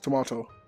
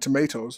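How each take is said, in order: First: It is said with a British pronunciation. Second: It is said with an American pronunciation.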